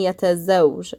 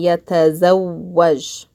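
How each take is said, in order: First: The w is said once, with no vowel after. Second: The w is held twice, followed by an a. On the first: The speaker calls it wrong. "I'm not saying yatazawj" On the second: The speaker calls it right. "I'm saying yatazawwaj"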